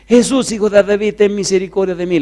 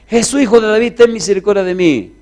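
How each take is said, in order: First: It is shouted loudly. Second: It is shouted even louder.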